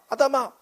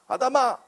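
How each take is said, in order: First: It is called out in a rough, harsh tone. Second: It is called out in a rough, harsh tone.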